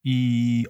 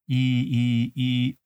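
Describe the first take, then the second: First: The two vowels run together without a break. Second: The two vowels are said apart with a pause. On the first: "今度は、いとおを続けて言う。" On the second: "最初、いと言って、い、で、次に、おというと。"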